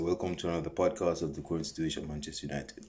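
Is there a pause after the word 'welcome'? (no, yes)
no. It is said quickly with no pause. "nowadays, I'm really fast with it"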